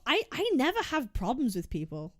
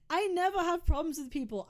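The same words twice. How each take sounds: First: Said in the usual way. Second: Laughing, higher repeat; laughing repeat of your own claim. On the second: Real, not acted. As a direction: laugh while you say it again.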